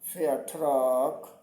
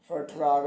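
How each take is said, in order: First: The word ends with a k sound. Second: The word ends with a g sound. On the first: The speaker calls it right. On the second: The speaker calls it wrong.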